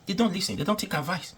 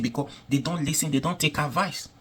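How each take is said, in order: First: Pitched well up and pressed hard; emphatic higher repeat. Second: Said in the usual way. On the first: Real, not acted. Repeating that the government never listens, emphatic and high. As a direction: hammer the complaint home, much higher.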